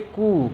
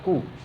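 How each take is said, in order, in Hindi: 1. स्वर लंबा और खिंचा हुआ है। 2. स्वर छोटा और झटके से बोला गया है। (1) "इसे हम लोग बोलेंगे" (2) "तुरंत बोल देंगे"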